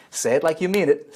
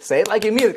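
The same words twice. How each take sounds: First: Said in the usual way. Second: Pushed higher and louder, coach hyping the crowd; urging, louder. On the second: Shown as a demonstration. Coach urging viewers to repeat after him, loud and higher. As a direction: demand it with real force the second time.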